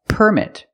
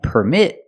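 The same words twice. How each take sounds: First: The stress is on the first syllable. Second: The stress is on the second syllable. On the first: It names a thing, a noun. "If the word is a noun, we put the stress on the first syllable" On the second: It names an action, a verb. "with the stress on the second syllable, is a verb"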